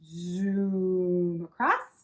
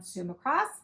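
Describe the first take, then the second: First: The words are stretched out and emphasized. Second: The words are said at a normal length.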